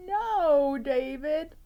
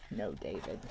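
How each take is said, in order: First: High, loud stern mother calling out; scolding mom. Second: A low, soft stern mother's warning; low stern mom. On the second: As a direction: drop low and warn him quietly. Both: Acted. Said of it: "David's mom always said".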